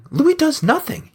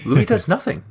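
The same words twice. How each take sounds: First: Louis hit much higher; stress on Louis. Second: Said in the usual way. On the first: Shown as a demonstration. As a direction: push "Louis" up in outrage.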